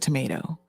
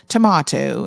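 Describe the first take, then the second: First: The word has a non-British pronunciation. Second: The word has a British pronunciation. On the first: The speaker's own family says it this way. "instead of tomato" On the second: Relatives from the UK say it this way. "they're saying tomato"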